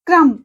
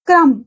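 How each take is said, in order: The two takes are said the same way.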